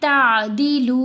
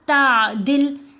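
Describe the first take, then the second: First: The word ends on a lengthened 'u' vowel. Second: The word ends abruptly on a consonant. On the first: The speaker calls it right. "लाम के ऊपर पेश भी पढ़ेंगे, लाम को लंबा भी करेंगे" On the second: The speaker calls it wrong. "ऐसे नहीं पढ़ेंगे"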